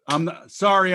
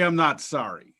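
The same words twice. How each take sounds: First: "sorry" tossed off as a reflex apology, a bit louder; quick apology. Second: Said in the usual way. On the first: Shown as a demonstration. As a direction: blurt "sorry" as if apologizing by habit.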